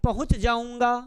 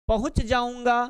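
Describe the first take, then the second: No difference in how they are said.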